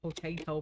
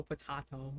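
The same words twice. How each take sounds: First: "Potato" as puh-TAY-toh; potato with long AY. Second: "potato" as puh-TAH-toh, dropped softer and lower; potato with broad AH. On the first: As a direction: say "Potato" with AY in the middle. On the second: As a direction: say "potato" with AH in the middle. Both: Shown as a demonstration. Contrasts two ways of saying potato.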